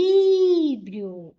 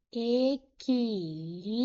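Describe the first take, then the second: First: EQUILÍBRIO with LÍ high, loud and long; stress on LI. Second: EQUILÍBRIO split slowly into e-qui-lí-brio; syllable by syllable. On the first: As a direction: call out "Equilíbrio", holding the LÍ. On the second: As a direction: sound out "Equilíbrio" in separate syllables. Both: Shown as a demonstration. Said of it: "O li foi a sílaba mais forte".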